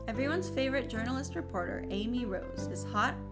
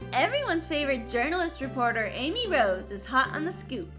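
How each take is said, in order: First: It is said in the speaker's natural voice. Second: It is said in Amy Rose's character voice.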